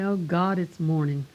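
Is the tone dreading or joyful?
dreading. It sounds weary and dreading, like a groan. The day ahead is a burden. "I know some people who get up and"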